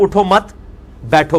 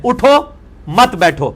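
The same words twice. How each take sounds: First: "اٹھو مت" as one unit, a pause, then "بیٹھو"; pause after مت. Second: "اٹھو" alone, a pause, then slow "مت بیٹھو" together; pause after اٹھو. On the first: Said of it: "پہ رک جائیں تو اس کا مطلب ہے". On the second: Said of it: "پہ رک جائیں". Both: Shown as a demonstration.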